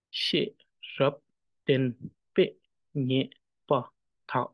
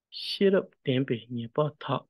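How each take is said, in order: First: "She, rap, ten, pe, nye, pa, ta" each syllable on its own; evenly separated "She, rap, ten, pe, nye, pa, ta"; syllable reading. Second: "Shirap tempe nye pa tha" sounded in a flow; line reading. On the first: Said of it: "syllable reading". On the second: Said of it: "When it comes to line". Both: Shown as a demonstration.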